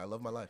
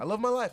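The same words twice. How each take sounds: First: Said in the usual way. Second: Loud and high, gushing; excited. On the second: Real, not acted. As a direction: belt it out with joy. Gushing about life.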